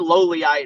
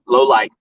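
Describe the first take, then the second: First: The name is said with three syllables. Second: The name is said with two syllables. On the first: The speaker calls it wrong. "I used to say lowlyite or whatever" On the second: The speaker calls it right. "they corrected me about five times"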